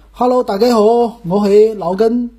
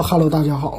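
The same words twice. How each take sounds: First: Higher sing-song Cantonese greeting; Cantonese show opening. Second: Said in the usual way. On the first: Shown as a demonstration. Host trying a changed opening, Cantonese greeting. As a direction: open the show in amateur Cantonese. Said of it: "我改一改，我就说". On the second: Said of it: "不是说".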